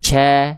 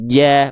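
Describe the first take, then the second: First: The consonant is voiceless, like 'ch'. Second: The consonant is voiced and solid, like 'j'. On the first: The speaker calls it wrong. "Ca, ca, enggak ya" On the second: The speaker calls it right. "bunyinya solid"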